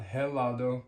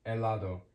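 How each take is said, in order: First: "helado" with an English h at the start; wrongly sounded H. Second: "helado" as eh-LAH-do, no h breath; silent H. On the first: Teacher showing learners what not to say, "helado" with a sounded H. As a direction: say "helado" as heh-LAH-do, h audible. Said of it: "Not helado". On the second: Teacher correcting the wrong take, "helado" with silent H. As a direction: drop the h and begin "helado" on the vowel. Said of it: "The H is always silent". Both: Shown as a demonstration.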